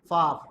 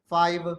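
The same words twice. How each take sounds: First: It is said in a South African accent. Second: It is said in the speaker's local accent. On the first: "South African people says" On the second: "In our part of the world we say"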